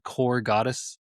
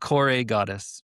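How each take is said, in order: First: The name is said as one syllable, no final vowel. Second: The name is said as two syllables, ending in a vowel. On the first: The speaker calls it wrong. "did I say the name wrong?" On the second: The speaker calls it right. "you actually pronounce the E"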